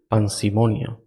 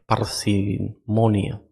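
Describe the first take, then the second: First: The word begins with the sound 'pan'. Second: The word begins with the sound 'par'. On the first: The speaker calls it wrong. "Yo dije pan" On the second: The speaker calls it right. "Es parsimonia"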